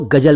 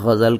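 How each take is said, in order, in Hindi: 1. इसमें सादे g और j की आवाज़ें हैं। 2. इसमें गले वाले gh और z की आवाज़ें हैं। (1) "गज़ल को गजल ना कहें" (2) "गज़ल कहें"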